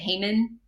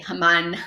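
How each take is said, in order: First: The name is said the American way. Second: The name is said the Israeli way.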